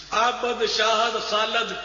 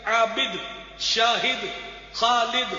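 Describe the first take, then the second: First: "عابد، شاہد، خالد" as abad, shahad, khalad; mispronounced "عابد، شاہد، خالد", endings in -ad; wrong pronunciation. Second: "عابد، شاہد، خالد" as abid, shahid, khalid; separate, careful "عابد، شاہد، خالد", ending -id; correct pronunciation. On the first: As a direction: put a in the last syllable of "عابد، شاہد، خالد". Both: Shown as a demonstration. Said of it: "تو یہ سب غلط ہے".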